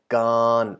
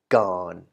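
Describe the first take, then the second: First: The syllable is said with a higher, non-low tone. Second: The syllable is said with a low tone. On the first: "before we had gone" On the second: "will result in a low tone"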